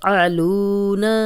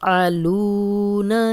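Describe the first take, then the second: The two takes are said the same way.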